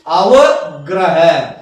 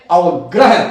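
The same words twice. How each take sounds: First: अवग्रह slowly split as "ava... graha"; drawn-out syllables. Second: Said in the usual way. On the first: Shown as a demonstration. Teacher repeating the term for learners, slow and syllabic. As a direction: say अवग्रह very slowly, in separate parts.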